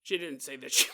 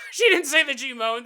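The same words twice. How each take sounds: First: Said in the usual way. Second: Loud laughing retake; louder, higher, laughing; laughing shout. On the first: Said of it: "repeats it laughing". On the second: Real, not acted. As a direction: burst out laughing mid-line. Laughing repeat of own line.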